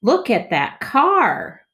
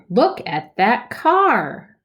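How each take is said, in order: First: Higher, slow, full of wonder; excited reading. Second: Slow, higher and louder; excited reading. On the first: Teacher models excited smooth reading for kids. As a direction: show how exciting it is. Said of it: "with excitement". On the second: Teacher models excited reading for kids. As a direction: read it like something amazing. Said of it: "exclamation point". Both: Shown as a demonstration.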